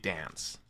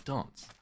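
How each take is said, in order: First: The word is said with an American accent. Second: The word is said with a British accent. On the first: "that's how American people tend to say it" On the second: "British people say dance"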